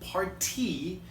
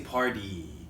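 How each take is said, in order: First: The middle t is a strong, crisp t. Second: The middle t sounds almost like a d. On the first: The speaker calls it wrong. "I don't say party" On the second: The speaker calls it right. "I say party. So it almost sounds like a D"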